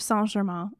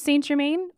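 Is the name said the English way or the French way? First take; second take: French; English. First: The name is said with French sounds. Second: The name is said with English sounds.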